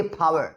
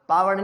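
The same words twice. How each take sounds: First: "पावर" as "phaawer", a puff on the p; aspirated P. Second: "पावर" with a plain p and no breath; unaspirated P. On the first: Teacher correcting it, "पावर" with strongly aspirated p. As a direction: burst air on the p of "पावर". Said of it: "वो होती है पावर". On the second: Teacher showing the wrong way, "पावर" without aspiration. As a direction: hold back the air on the p of "पावर". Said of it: "पावर नहीं होता है". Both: Shown as a demonstration.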